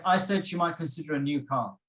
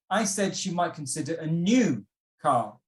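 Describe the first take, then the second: First: Said in the usual way. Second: "new" stretched and punched; emphasize "new", with a slight hold before "car"; stress on new. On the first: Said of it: "you can say this in different ways". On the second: Shown as a demonstration. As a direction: lean hard on the word "new". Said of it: "if we are emphasizing that word".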